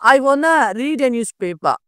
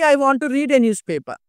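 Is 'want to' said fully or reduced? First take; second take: reduced; fully. First: 'Want to' is blended into one word, 'wanna'. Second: Both words of 'want to' are fully pronounced.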